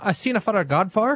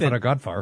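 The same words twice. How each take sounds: First: The name is said at a normal pace. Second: The name is said quickly.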